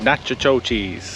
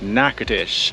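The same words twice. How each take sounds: First: The name is read out as it is spelled. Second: The name is said in its local pronunciation. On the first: The speaker calls it wrong. "which is of course not pronounced like that" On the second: The speaker calls it right. "It is pronounced Natchitoches"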